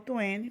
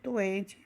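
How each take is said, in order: First: It is said with an American accent. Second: It is said without an American accent.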